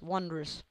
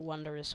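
First: The word is said with two syllables. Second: The word is said with three syllables. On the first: The speaker calls it right. "It's two syllables" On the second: The speaker calls it wrong. "Not wondrous"

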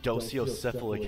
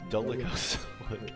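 First: The word begins with the sounds 'dosio'. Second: The word begins with the sounds 'dolico'. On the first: The speaker calls it wrong. "I thought it was docio" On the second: The speaker calls it right. "Oh, it's dolicocephalic"

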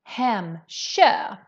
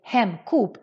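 First: The consonant before ö is a sh-like sound. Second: The consonant before ö is a hard k. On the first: The speaker calls it right. "the sound of the K changes more to a sh sound" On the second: The speaker calls it wrong. "many people pronounce this wrong and they say Hemköp"

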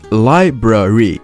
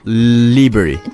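First: The word is said with both 'r' sounds. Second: The word is said with the first 'r' sound dropped. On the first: The speaker calls it right. "should be pronounced library" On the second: The speaker calls it wrong. "not library"

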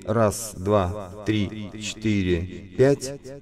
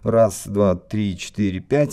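First: The voice has chorus with delay echoes. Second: The voice has a wah-wah filter effect. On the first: "это хорусы плюс дилеи" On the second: "Эффекты вау-вау"

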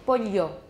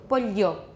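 Both takes have the same delivery.

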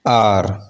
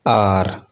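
No difference in how they are said.

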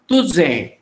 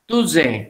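First: The middle consonant is a z sound. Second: The middle consonant is a z sound.

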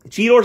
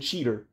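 First: The last syllable sounds like 'tor'. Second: The last syllable sounds like 'ter'. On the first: The speaker calls it right. "there's an O in it, so I've always pronounced it Cheetor" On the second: The speaker calls it wrong. "in the show they always pronounce it cheater"

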